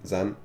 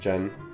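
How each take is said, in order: First: The name begins with a z sound. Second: The name begins with a j sound. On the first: The speaker calls it wrong. "most people have determined it to mispronounce your name since elementary school. I'll join them" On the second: The speaker calls it right. "It's pronounced more like Jen than Zen. Oh, my fault, Jen"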